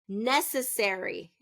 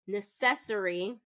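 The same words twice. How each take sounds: First: The stress is on the first syllable. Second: The stress is on the second syllable. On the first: The speaker calls it right. "is going to be first syllable stress" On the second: The speaker calls it wrong. "where it's second syllable stress"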